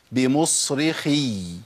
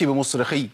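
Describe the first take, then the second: First: Slow "بمصرخي" with a long doubled ya at the end; held final ya. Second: "بمصرخي" cut short at the end; dropped final ya. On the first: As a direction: let the last ya of "بمصرخي" flow on. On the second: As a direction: chop off the doubled ya in "بمصرخي". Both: Shown as a demonstration. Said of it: "ما أقولش بمصرخي".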